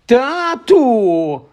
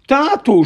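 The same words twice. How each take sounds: First: High yelled call to dad; sudden yell. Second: High yelled call to dad; yelling again. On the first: Dudley bursting in on his parents with a high yell. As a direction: shout for Dad, pitched high. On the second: Dudley calling his father about Harry's letter, high yell. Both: Acted. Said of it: "раптом зарепетував Дадлі".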